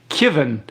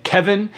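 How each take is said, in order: First: "Kiven" said KIV-en, with the short i of "kit" in place of the e; imitating how New Zealanders say "Kiven", first vowel as in "kit"; Kiwi-style Kevin. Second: Said in the usual way. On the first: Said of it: "they say Kiven". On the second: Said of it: "instead of saying Kevin".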